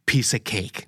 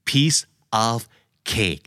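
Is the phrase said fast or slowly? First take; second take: fast; slowly. First: The phrase is said fast and run together. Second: The phrase is said slowly and separately.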